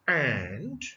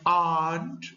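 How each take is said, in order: First: The vowel is a flat a sound. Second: The vowel is an open ah sound. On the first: The speaker calls it right. "it's and" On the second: The speaker calls it wrong. "not and"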